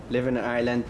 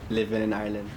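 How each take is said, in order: Both takes have the same delivery.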